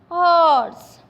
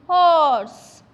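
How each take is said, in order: No difference in how they are said.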